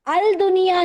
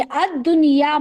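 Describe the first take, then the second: First: अल-दुनिया with the lam sounded, al-dunya; अल-दुनिया spoken as al-dunya, not assimilated; wrong reading shown. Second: अद-दुनिया said ad-dunya with a doubled d; अद-दुनिया pronounced with the d held, no l; correct assimilated reading. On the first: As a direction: show the error, say अल-दुनिया with a clear l. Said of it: "नहीं पढ़ेंगे". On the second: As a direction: drop the lam, अद-दुनिया as ad-dunya. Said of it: "हम इसमें लाम नहीं पढ़ेंगे". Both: Shown as a demonstration.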